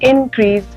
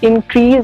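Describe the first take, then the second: First: The stress is on the first syllable. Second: The stress is on the second syllable. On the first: It is a noun meaning an increase. "इनक्रीज का मतलब होता है बढ़ोतरी" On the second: It is a verb meaning to increase. "इंक्रीज का मतलब होता है बढ़ाना"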